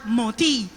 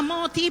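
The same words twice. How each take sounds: First: Moti said the local Spanish way of Colón; Colón pronunciation. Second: Moti said the English way; English name as said. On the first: Pastor shows how Colón neighbors said Moti, local Spanish way. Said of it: "sino era Moti". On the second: Pastor recalls a neighbor, says Moti the English way. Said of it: "pero no era Moti". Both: Shown as a demonstration.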